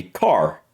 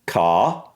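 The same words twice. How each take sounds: First: "car" with a sounded American R; American pronunciation. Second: British "Ca" with no R, long open vowel; British accent. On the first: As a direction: end "car" on a clear R. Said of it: "and I would be car". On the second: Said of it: "And for British". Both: Shown as a demonstration.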